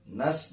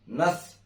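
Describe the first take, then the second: First: It ends in a clean s sound. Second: It ends in a th sound. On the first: The speaker calls it right. "terdengar bersih" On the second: The speaker calls it wrong. "jangan nath"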